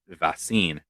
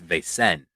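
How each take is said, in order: First: The name sounds like the word vaccine. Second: The name does not sound like vaccine. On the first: The speaker calls it wrong. "I think I pronounced it as Vaccine" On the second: The speaker calls it right. "it's Vaesen"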